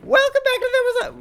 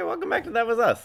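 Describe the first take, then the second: First: It is said louder. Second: It is said at normal, quieter volume.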